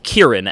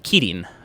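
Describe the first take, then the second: First: The name is said with an American r. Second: The name is said with a Japanese tapped r. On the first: "I had to say it as Kirin, as in hearin" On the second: "I would want to say Kirin because it's just kind of how I was trained"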